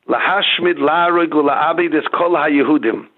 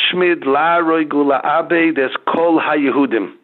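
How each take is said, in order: Both takes have the same delivery.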